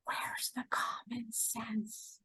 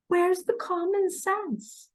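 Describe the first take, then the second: First: Whisper. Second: Plain. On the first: Asking viewers, then repeats louder. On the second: Repeats question after whisper. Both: Real, not acted.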